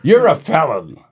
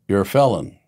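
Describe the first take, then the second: First: It is said in a livelier, more energetic way. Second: It is said in a calmer, lower-energy way. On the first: The speaker calls it right. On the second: The speaker calls it wrong.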